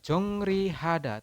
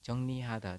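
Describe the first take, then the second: First: The second syllable begins with an R sound. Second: The second syllable begins with an N sound. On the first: "tulisannya adalah Jongrihada" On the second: "Anda membacanya adalah Jongnihada"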